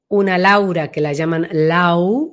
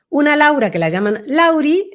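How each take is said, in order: First: "Lau" drawn out slowly and sunk inward; slow, inward-placed "Lau"; voice going inward. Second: "Lauri" lifted high at the end; raised pitch, rising onto "Lauri"; voice going up. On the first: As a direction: let "Lau" fall back inside, slowly. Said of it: "va más hacia adentro". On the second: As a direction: let the voice climb up on "Lauri". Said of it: "la voz se le va para arriba". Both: Shown as a demonstration.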